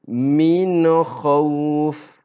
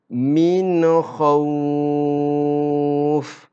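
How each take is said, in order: First: The vowel in khawf is held two beats. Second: The vowel in khawf is held six beats. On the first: "Contoh bacaan dua harakat" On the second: "Dan contoh bacaan enam harakat"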